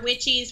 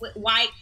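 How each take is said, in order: First: The first vowel sounds like 'witch'. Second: The first vowel sounds like 'white'. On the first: The speaker calls it wrong. "someone told me I say that wrong" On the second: The speaker calls it right. "is what it's actually supposed to be"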